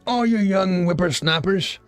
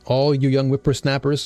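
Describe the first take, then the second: First: It is read in a put-on old man's voice. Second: It is read in his ordinary voice.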